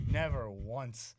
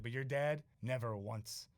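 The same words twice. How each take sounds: First: "Never once" slow, louder, each word weighed; slow emphatic repeat. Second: Put-on lightly done Boston accent; a hint of Boston in the vowels. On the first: Retold or imitated. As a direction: lean hard on "Never once", drawn out. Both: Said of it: "He had this, like, Boston accent".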